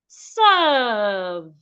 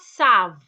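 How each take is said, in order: First: The vowel is a long uh sound. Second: The vowel is short, without the long uh sound. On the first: The speaker calls it right. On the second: The speaker calls it wrong.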